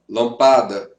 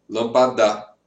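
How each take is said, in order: The two takes are said the same way.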